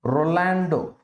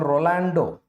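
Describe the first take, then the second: First: The name ends on a final vowel sound. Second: The name ends on a final vowel sound.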